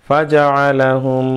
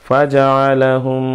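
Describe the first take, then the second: No difference in how they are said.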